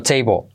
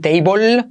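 First: "table" with the final L almost dropped, like "teibo"; short "table" ending in a vowel, L barely there; near-silent final L. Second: "table" with a drawn-out, clearly sounded final L; "table" said wrongly with a heavy L at the end; wrong pronunciation. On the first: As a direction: let the L at the end of "table" melt away. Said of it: "La L casi no se pronuncia al final". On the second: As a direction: stretch the end of "table" into a full L, rising. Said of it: "Cuidado no decir table". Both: Shown as a demonstration.

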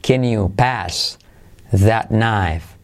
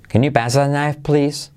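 First: Slow "Can you pass that knife", broken into two chunks; drawn-out learner-paced phrase; repeat-after-me model. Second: "Can you pass that knife, please" in one higher, flowing run; natural-speed full sentence; joined-up model. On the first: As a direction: pause before "that knife". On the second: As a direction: link the words without pauses. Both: Shown as a demonstration. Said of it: "¿Conmigo?".

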